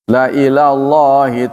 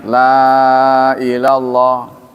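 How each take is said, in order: First: The vowel in 'la' is short. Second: The vowel in 'la' is long. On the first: It affirms that the gathering will surely happen. "la pendek konfirmasi" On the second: It denies that the gathering will happen. "kalau la-nya dibaca panjang"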